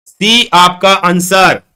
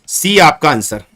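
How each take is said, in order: First: Very slow, stretching each word; drawn-out answer reveal. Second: Said in the usual way. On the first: Real, not acted. Teacher revealing the answer to the class, drawn out. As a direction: announce it word by word, long and drawn out.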